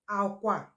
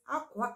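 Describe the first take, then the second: First: It has the tone pattern of the word bed. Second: It has the tone pattern of the word cloth. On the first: The word means bed. "Aqua, which is the bed" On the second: The word means cloth. "Aqua, as I said, generally is cloth"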